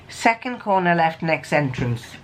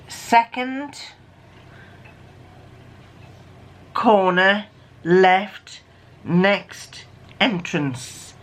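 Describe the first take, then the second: First: Said in the usual way. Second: Very slow, with long pauses between words. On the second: Shown as a demonstration. Reading out the decoded message to listeners, word by word. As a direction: read it out one word at a time, slowly.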